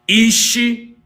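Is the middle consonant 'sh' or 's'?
sh. It has the dialect 'sh' sound.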